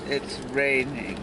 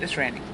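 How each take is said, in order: First: It is said in a dismayed, gloomy tone. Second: It is said in a cheerful, upbeat tone.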